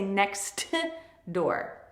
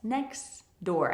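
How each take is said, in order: First: The t at the end of 'next' is pronounced. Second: The t at the end of 'next' is dropped. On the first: The speaker calls it wrong. "I don't say next door" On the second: The speaker calls it right. "elision is when a sound disappears"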